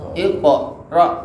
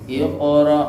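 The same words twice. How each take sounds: First: The q bounces strongly and breaks the word. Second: The q bounces lightly and flows into the rest. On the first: The speaker calls it wrong. "bukan Iqra, susah nanti ke depan" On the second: The speaker calls it right. "mantulnya dikit aja"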